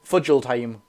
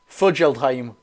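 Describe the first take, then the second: First: Every letter of the name is sounded out. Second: Every letter of the name is sounded out.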